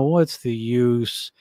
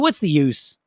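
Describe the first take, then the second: First: It is said in a slow, gloomy, droopy voice. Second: It is said in a brighter, livelier voice. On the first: "So the Eeyore voice" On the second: "it's got a different feeling to it"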